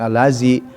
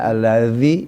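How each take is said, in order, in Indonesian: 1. Konsonan tengahnya adalah bunyi z biasa. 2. Konsonan tengahnya dibuat dengan lidah di antara gigi. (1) "ya asal aja" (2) "Ya digigit lidahnya"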